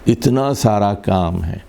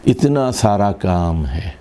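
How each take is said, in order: No difference in how they are said.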